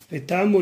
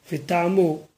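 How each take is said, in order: First: Vetamo with the accent at the end and a long middle vowel, vetaaMO; stress on last syllable. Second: Vetamo with the accent on the opening syllable, VEtamo; stress on first syllable. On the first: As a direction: let Vetamo land on its final syllable. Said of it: "l'accent tonique est vers le bas". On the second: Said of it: "l'accent tonique aurait été sur le haut du mot, c'est-à-dire la première syllabe". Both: Shown as a demonstration.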